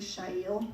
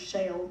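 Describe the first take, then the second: First: The name is said with its original pronunciation. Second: The name is said with an American pronunciation. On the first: "but it's actually" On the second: "her American pronunciation is"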